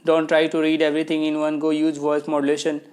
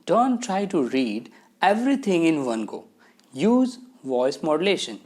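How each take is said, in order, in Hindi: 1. इसे एक ही बार में सपाट तरीके से पढ़ा गया है। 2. इसे अलग-अलग लहजे और ठहराव के साथ पढ़ा गया है। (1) "बिना वॉइस मॉड्यूलेशन के" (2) "लहजे में थोड़ा चेंज आ गया"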